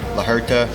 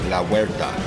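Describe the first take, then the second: First: The second word is 'her-ta' without a 'w' glide. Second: The second word starts with a 'wer' glide. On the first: The speaker calls it wrong. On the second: The speaker calls it right. "but it's La Huerta"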